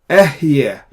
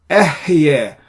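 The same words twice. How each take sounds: The two takes are said the same way.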